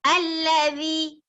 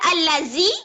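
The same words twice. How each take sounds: First: The middle consonant is a soft th sound. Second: The middle consonant is a buzzing z sound. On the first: The speaker calls it right. "yang tu baru betul" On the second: The speaker calls it wrong. "Siapa baca allazi? Salah"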